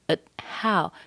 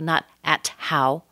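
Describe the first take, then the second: First: The T is held without release. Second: The T is clearly released. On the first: The speaker calls it right. "schwa, held T" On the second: The speaker calls it wrong.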